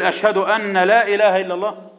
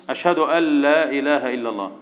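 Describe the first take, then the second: First: "أن لا" said an-la with the n sounded; wrong unmerged n. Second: "أن لا" run together as al-la; merged n. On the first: Teacher showing pupils the muezzin's error, "أن لا" with n unmerged. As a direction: keep a clear n before the l in "أن لا". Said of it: "يبقى هنا ده خطأ". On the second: Teacher correcting the call to prayer, "أن لا" merged as al-la. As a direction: drop the n into a doubled l in "أن لا". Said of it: "يبقى هنا في إدغام في النون". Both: Shown as a demonstration.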